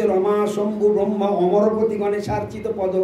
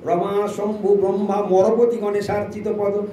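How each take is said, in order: First: অমরপতি said fully with the a- sound; correct pandit pronunciation. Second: মরপতি said with the a- sound dropped; ignorant mispronunciation. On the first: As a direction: recite অমরপতি correctly, like a scholar. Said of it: "যারা পণ্ডিত ব্যক্তি, সে বলছে". (অমরপতি শুদ্ধ সংস্কৃত উচ্চারণে) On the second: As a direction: say মরপতি instead of অমরপতি, like an untrained devotee. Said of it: "আর যে মূর্খ, সে বলছে". (ভুল উচ্চারণে মরপতি) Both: Shown as a demonstration.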